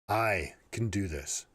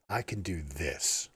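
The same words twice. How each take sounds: First: The word 'I' carries the stress. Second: The word 'this' carries the stress. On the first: "inflect on each of the different words" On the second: "inflect on each of the different words"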